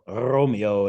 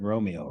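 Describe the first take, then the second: First: The R is rolled with a trill. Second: The R is plain, without a trill.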